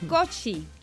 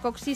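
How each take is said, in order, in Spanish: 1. La consonante del medio se pronuncia como ch. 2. La consonante del medio se pronuncia como ks. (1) "sino Kochi" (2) "en realidad no se pronuncia Koksi"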